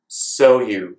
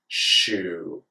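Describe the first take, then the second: First: An s sound is followed by y. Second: The s and y merge into sh. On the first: "make the sh sound out of the s sound" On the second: "make the sh sound out of the s sound"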